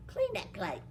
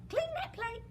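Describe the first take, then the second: First: Said in the usual way. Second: High, sing-song "clean that plate"; high coaxing repeat. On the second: Acted. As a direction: push him to finish, pitched up. Servant girl repeats order.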